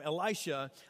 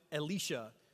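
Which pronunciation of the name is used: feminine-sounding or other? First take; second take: other; feminine-sounding. First: The name is said the other, non-feminine way. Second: The name is said the feminine-sounding way. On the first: This is the pronunciation the speaker chooses to use. "I'm going to call him Elisha" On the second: This is how some other people say the name. "some people pronounce it Elisha. But I think that sounds like a girl's name"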